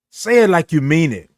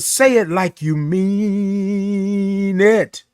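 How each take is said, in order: First: Said in the usual way. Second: MEAN held very long on one note. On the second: Shown as a demonstration. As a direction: stretch "mean" right out before "it". Stretches mean, then repeats it normally.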